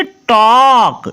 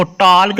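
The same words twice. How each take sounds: First: "टॉक" with the vowel stretched long into k; silent L. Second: "टॉल्क" with an audible l before the k; wrongly sounded L. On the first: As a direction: say "टॉक" very slowly, no l. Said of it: "इसको टॉल्क नहीं पढ़ना". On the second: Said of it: "नहीं पढ़ना". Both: Shown as a demonstration.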